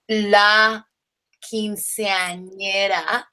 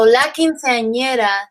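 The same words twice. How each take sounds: First: It is said slowly and carefully. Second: It is said at normal conversational speed.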